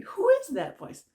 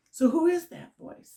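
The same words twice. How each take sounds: First: Who lifted much higher and louder; much higher emphatic question. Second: Emphatic question. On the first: Teacher pressing the audience, asking it much higher and louder. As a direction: fling the question up high. Rhetorical challenge, repeated higher. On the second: Rhetorical challenge to listeners. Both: Real, not acted.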